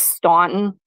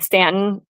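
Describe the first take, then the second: First: The first vowel sounds like in 'saw'. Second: The first vowel sounds like in 'cat'. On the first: This is how the spelling looks. The speaker calls it wrong. "it looks like it's pronounced Staunton" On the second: This is how the place is really called. The speaker calls it right. "there's a place called Stanton"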